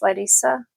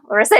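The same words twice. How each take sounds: First: The name is pronounced the Russian way. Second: The name is pronounced the English way. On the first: "I always say it in the Russian way" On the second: "in English"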